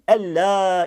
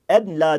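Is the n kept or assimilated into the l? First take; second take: assimilated; kept. First: The n merges into a doubled l. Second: The n is pronounced before the l. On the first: The speaker calls it right. "ella şeklinde söylenmelidir" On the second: The speaker calls it wrong. "Eşhedü en la değil ella şeklinde söylenmelidir"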